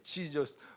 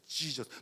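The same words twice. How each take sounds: First: It is said as a startled exclamation. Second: It is said like an irritated curse. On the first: The speaker is startled. "놀랄 때에도" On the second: The speaker is cursing. "욕할 때에도"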